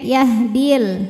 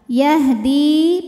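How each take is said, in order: First: The vowel after the d is short. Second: The vowel after the d is held long. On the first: The word is joined to the next word. "dal dalnya jadi pendek" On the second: The reader stops on this word. "Yahdi panjang"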